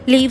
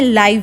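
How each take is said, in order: First: The vowel is a long 'ee' sound. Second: The vowel is an 'eye' sound. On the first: To reside somewhere. "जिसका उच्चारण हम करते हैं लीव से" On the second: Broadcast as it happens. "लेकिन इसका उच्चारण हम करते हैं लाइव से"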